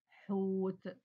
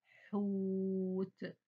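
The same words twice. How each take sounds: First: Said in the usual way. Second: حوت with the و held long; stretched syllable. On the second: Shown as a demonstration. Teacher to pupils, stretching the vowel in حوت. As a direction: draw out the حو in حوت. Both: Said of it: "أنا طولت في صوت حرف الحاء".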